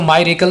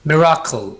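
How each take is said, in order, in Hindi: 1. पहला अक्षर 'my' जैसा सुनाई देता है। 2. पहला अक्षर 'mi' जैसा सुनाई देता है।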